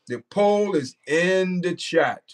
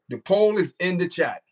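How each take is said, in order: First: Slow, each word spaced out for the chat; slow emphatic repeat. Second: Said in the usual way. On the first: Shown as a demonstration. Streamer repeating to viewers where the poll is, slow and deliberate. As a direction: spell it out slowly so nobody misses it.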